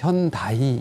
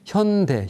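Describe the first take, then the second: First: The second syllable ends in an 'ai' glide. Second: The second syllable ends in a plain vowel. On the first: "미국이나 이런 데 가면 현다이 이렇게 아. 부릅니다" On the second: "현대자동차의 현대를"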